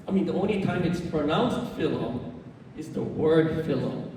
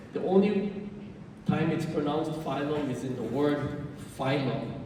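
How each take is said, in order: First: Phylum said FILL-um by mistake; short-i slip. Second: Phylum said FYE-lum; long-i pronunciation. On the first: Real, not acted. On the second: Shown as a demonstration. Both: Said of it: "no, phylum".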